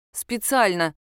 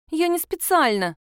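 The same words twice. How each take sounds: First: Hurt. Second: Put-on high pouty little girl, lips pushed out; pouting child. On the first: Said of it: "ответил я обиженно". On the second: Girl pouting at her aunt, high sulky voice. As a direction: sulk it out like a scolded girl. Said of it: "Она надула губы". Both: A narrator's reading.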